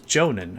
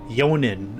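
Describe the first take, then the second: First: The name begins with a J sound. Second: The name begins with a Y sound. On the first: The speaker calls it right. "oh, it's Jonan" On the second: The speaker calls it wrong. "I've been pronouncing it like that"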